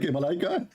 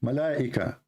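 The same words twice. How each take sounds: First: Malaika as a questioning ma-LIKE-a; mimicked mispronunciation. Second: Malaika with a long middle A, then "ika"; corrected pronunciation. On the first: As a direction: echo Malaika with the middle run together, rising at the end. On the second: Shown as a demonstration. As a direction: say Malaika as ma-LAA-ika, falling and lower. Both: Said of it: "What kind of Arabic?".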